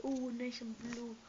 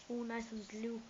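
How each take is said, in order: First: Slow, savoring each word; slow drawn-out. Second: Said in the usual way. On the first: Shown as a demonstration. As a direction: stretch it out admiringly. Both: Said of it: "repeated take".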